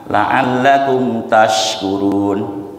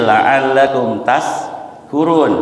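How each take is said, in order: First: "La'allakum tashkurun" drawn out very slowly with a clear sh; correct recitation. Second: "la'allakum tashkurun" said very slowly with s in place of sh; wrong recitation. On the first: Teacher showing the correct Quran reading, slow and exact. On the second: Teacher showing the wrong reading, slow and deliberate. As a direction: read "tashkurun" as "taskurun", a slow wrong example. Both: Shown as a demonstration. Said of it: "Sin besar dibaca sin kecil".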